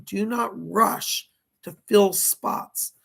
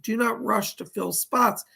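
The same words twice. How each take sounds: First: Slow, each word of "do not rush to fill spots" spaced out with weight on "fill"; slow, deliberate quote. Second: Said in the usual way. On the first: Retold or imitated. Medium relaying a spirit's exact words, slow and deliberate. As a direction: lay the spirit's words down slowly, one by one. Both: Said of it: "this is his words, literally".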